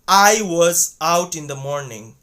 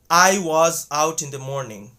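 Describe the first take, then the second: No difference in how they are said.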